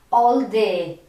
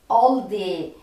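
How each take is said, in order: Both takes have the same delivery.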